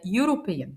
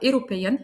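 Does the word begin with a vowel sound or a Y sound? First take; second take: Y sound; vowel sound. First: The word begins with a Y sound. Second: The word begins with a plain vowel sound. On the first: The speaker calls it right. "هي European ... ونطقنا تاني حرف يو" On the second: The speaker calls it wrong. "بسمع ناس بيقولوها"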